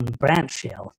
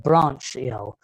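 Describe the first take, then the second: First: "branchial" repeated slowly and a little softer, British BRAN-kee-ul; repeated careful pronunciation. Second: "branchial" said slowly and deliberately in a British accent, BRAN-kee-ul; slow, careful "branchial" with British vowels, each syllable given room; careful British pronunciation. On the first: Lecturer repeating "branchial" for listeners, slow, soft British pronunciation. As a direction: say "branchial" again, slow and deliberate, trailing off. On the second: Lecturer carefully sounding out "branchial" for his audience, slow British pronunciation.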